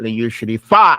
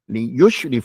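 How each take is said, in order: First: The stress is on the last syllable. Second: The stress is on the first syllable. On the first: The speaker calls it wrong. "you can't put the emphasis on the fa" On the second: The speaker calls it right. "You have to put it on the ya"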